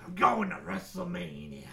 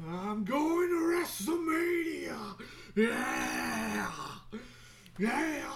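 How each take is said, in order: First: Growly put-on wrestler declaration; hammed-up wrestler voice at speaking pitch; wrestling promo. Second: High, slow, drawn-out wrestler shout; hammed-up promo yell, stretched and high; wrestling promo. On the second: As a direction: holler it like a hyped-up wrestler. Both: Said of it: "doing a promo".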